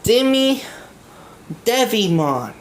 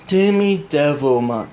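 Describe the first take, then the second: First: The name has no L sound before 'mon'. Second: The name has an L sound before 'mon'. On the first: The speaker calls it right. "It's Demi Devimon" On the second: The speaker calls it wrong. "It's not Demi Devilmon"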